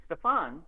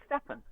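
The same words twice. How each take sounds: First: Stefan with the stress on the second syllable; fan's pronunciation. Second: Stefan as STEFF-un, stress up front; publisher's pronunciation. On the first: Fan writes in about the audiobook name, Stefan pronounced stuh-FAHN. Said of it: "I've had a letter from someone". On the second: Narrator recalls the publisher's list, Stefan pronounced STEFF-un. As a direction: say Stefan with a short, unstressed second syllable. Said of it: "gave me a list of pronunciations". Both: Shown as a demonstration.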